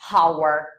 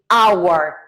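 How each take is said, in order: First: The word starts with an audible h sound. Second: The word starts with no h sound. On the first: The speaker calls it wrong. "not hour" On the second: The speaker calls it right. "the H is mute. So we say hour"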